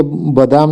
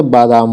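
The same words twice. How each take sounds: First: बादाम with short first vowel, "ba-daam"; wrong pronunciation. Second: बादाम with long first vowel, "baa-daam"; correct pronunciation. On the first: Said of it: "बादाम नहीं होता है". (बादाम को 'बदाम' बोलें) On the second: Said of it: "बादाम होता है". (बादाम में 'बा' लंबा बोलें) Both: Shown as a demonstration.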